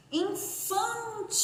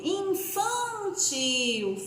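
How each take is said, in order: First: Infantil very slow, higher and softer, nasal in; teacher models a nasal syllable; slow soft demo. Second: Infantil very slow, nasal in stretched; teacher repeats the word; slow demo. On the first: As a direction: breathe out Infantil gently, syllable by syllable. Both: Shown as a demonstration. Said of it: "prestando atenção no som das sílabas".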